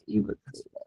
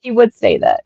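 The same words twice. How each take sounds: First: Breathy whispered mutter to self; whispered aside. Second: Said in the usual way. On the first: Real, not acted. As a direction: drop it to a whisper. Repeats the remark aside.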